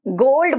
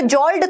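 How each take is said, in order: First: The word begins with a G sound. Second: The word begins with a J sound. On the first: The speaker calls it right. "गोल्ड बोल रहे हैं" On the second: The speaker calls it wrong. "जॉल्ड थोड़ी बोल रहे हैं"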